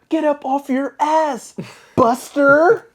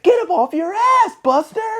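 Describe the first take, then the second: First: It is said flatly, without much feeling. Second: It is said intensely, like a tough thug.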